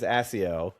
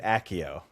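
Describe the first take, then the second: First: Accio said with an S sound, ASS-ee-oh; soft C. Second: Accio said with a K sound, AK-ee-oh; hard C. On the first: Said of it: "in my head". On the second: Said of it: "I pronounce it". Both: Shown as a demonstration.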